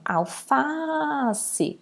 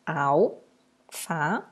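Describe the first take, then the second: First: "alface" with a very long "fa"; called out, stretched. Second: "Alface" broken up, a pause after each syllable; split into syllables. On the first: Teacher calling the word to find the tonic syllable, "alface" stretched on "fa". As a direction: call "alface", holding the "fa". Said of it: "Quando eu chamo". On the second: Teacher showing how to separate the word, "Alface" syllable by syllable. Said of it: "Como que eu separo?". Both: Shown as a demonstration.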